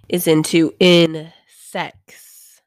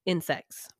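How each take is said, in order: First: Slow, loud, stretched "into insects"; drawn-out insects. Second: Said in the usual way. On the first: Real, not acted. Host recapping the episode, slow loud "into insects". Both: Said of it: "I don't like the way that I said that".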